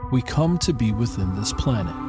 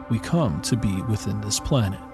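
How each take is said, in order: Both takes have the same delivery.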